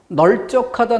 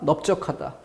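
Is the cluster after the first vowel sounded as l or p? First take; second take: l; p. First: The first syllable ends with an l sound. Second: The first syllable ends with a p sound. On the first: The speaker calls it wrong. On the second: The speaker calls it right.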